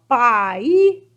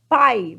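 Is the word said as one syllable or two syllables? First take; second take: two syllables; one syllable. First: The word is split into two syllables. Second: The word is said as one syllable. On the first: The speaker calls it wrong. "você vai separar pai assim, ó, pai, não" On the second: The speaker calls it right. "Pai é uma sílaba só, você só abre a boca uma vez"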